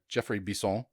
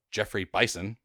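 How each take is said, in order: First: "Bison" as French "bee-SO", nasal end, final n dropped; "Bison" with an ee sound and a nasal French o; French reading. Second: "Bison" said like the animal, "BYE-sun"; "Bison" with an English long i and a final n; English reading. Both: Shown as a demonstration. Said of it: "or Geoffrey Bison".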